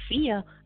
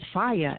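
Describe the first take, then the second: First: The first vowel sounds like 'ee'. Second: The first vowel sounds like 'eye'. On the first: The speaker calls it wrong. "They'll say Fia. ... where the fuck is the E at?" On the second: The speaker calls it right. "It's Fire. F-I. Isn't it I?"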